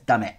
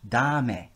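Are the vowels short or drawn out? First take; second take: short; drawn out. First: It has short, crisp Japanese vowels. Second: It has long, drawn-out English vowels.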